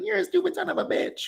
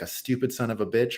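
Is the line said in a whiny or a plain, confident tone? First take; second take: whiny; confident. First: It is said in a whiny tone. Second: It is said in a plain, confident tone.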